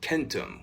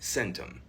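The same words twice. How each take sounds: First: The word begins with a hard K sound. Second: The word begins with a soft S sound. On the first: This is how it was likely said in ancient Latin. "hard C's in places like Latin, ... probably more often pronounced more like centum" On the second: This is how a modern English speaker would naturally say it. "whereas I would naturally say that more like centum"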